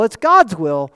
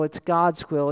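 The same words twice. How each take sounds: First: Louder, with weight on God's; a louder preacher's take on God's; emphatic preaching. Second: Said in the usual way. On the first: Acted. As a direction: drive home God's will from the pulpit.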